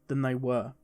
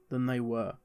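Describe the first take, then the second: No difference in how they are said.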